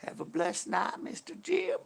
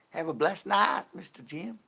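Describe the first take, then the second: First: High-pitched Texas drawl, lifting sharply on the name; sweet Texas sign-off in a raised voice; Texas accent. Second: Higher, louder Texas twang; Texas accent. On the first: Acted. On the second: Shown as a demonstration. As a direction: send the farewell out in a raised Texas voice. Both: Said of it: "I'll say that in a Texas accent".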